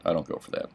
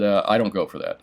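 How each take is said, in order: First: Breathy, whispered I don't go for that; whispered repeat. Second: Said in the usual way. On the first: Real, not acted. Dealer repeating his refusal to viewers, whispered. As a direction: say I don't go for that again under your breath.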